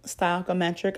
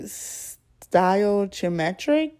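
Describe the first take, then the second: First: "stoichiometric" softly as sty-ah-kometric, with a k sound; "stoichiometric" much softer, k in place of ch; settled pronunciation. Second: "stoichiometric" slowly sounded out as sty-oh-chee-ometric, rising; tentative "stoichiometric", sty-oh-chee-ometric; unsure pronunciation. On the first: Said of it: "I'm gonna go with that". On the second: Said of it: "I'm about to sound so crazy". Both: Real, not acted.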